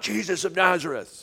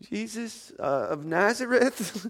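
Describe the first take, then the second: First: It is said boldly and confidently. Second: It is said hesitantly and uncertainly. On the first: The crowd is certain whom it wants. "the first time they probably came saying" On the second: The crowd has been shaken and doubts itself. "the second time they're kind of like"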